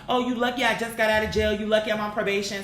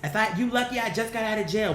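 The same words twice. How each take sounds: First: Mock excuse. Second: Said in the usual way. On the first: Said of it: "When people be afraid, they have all these excuses".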